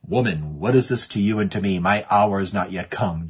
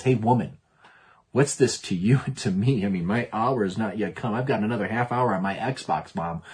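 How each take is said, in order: First: Said in the usual way. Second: Lightly voiced teenage back talk; a hint of a teen putting Mom off; rebellious teenager. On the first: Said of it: "Jesus says those strange words". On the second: Johnny answers Mom about dinner, mild teenage rebellion. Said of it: "sounds like a rebellious teenager".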